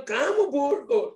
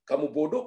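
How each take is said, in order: First: "Kamu bodoh" pitched high and slow; drawn-out correction. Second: Said in the usual way. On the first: Shown as a demonstration. Showing what teacher should have said, "Kamu bodoh" high and drawn out. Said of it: "harusnya bilang". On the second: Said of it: "Bukannya bilang".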